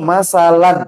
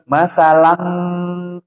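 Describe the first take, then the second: First: The word ends with an 'n' sound. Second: The word ends with an 'ng' sound. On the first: The speaker calls it right. "Ini harusnya masalan" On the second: The speaker calls it wrong. "jangan masalang"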